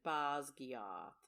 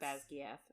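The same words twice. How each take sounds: First: The word is said in a put-on British accent. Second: The word is said in the speaker's ordinary accent.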